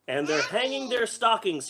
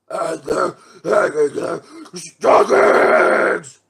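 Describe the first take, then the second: First: It is read in a normal voice. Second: It is said in a scary Grinch voice.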